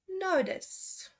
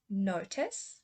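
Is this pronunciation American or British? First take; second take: American; British. First: It is said in an American accent. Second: It is said in a British accent. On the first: "then I will say the U S" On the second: "first say the U K pronunciation"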